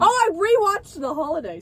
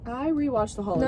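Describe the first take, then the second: First: It is said loudly, almost yelled. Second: It is said at a normal, quieter volume.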